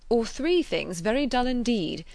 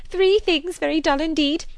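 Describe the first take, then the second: First: Raised, measured announcement of the rules; announcer's delivery. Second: Very high, loud, delighted echo; Miss Bates. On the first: Acted. Frank listing options to the party, announcer's delivery. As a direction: set it out as the last option. Frank's take, later echoed. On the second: A narrator's reading. Spinster echoing the game's rule, high exclamation. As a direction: seize on it in an excited high voice. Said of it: "exclaimed Miss Bates".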